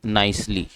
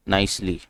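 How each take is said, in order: Both takes have the same delivery.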